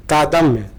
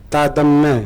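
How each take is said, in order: Both takes have the same delivery.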